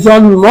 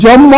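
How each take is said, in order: First: জন্ম as "jon-mo"; sounded m. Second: জন্ম with one doubled nasal, "jonno"; expected doubled consonant. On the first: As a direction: say জন্ম with n then a clear m. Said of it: "কিন্তু না, হবে". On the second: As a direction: say জন্ম without a separate n-m cluster. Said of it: "উচ্চারণ হওয়ার কথা ছিল". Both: Shown as a demonstration.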